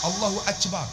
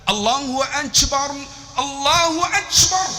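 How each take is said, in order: First: Akbar said as "achbar" in usual voice; Turkish "achbar". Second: High, slow call with AKBAR as "achbar"; Turkish-accented azan. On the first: Preacher showing what Turks cannot pronounce, "achbar". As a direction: say Allahu Akbar plainly, "ch" for k. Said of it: "Tak boleh sebut". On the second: Turks calling azan in their pronunciation, high slow call. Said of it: "Sebab tu depa azan". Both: Retold or imitated.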